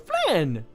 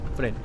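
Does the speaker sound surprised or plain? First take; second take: surprised; plain. First: It sounds surprised, as if spotting a pet. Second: It sounds plain and matter-of-fact, like pointing.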